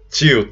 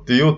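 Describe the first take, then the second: First: It is said with a Rio de Janeiro accent. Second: It is said with a northeastern Brazilian accent. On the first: "aqui no Rio de Janeiro vocês falam tio" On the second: "Lá no norte eu falo tio"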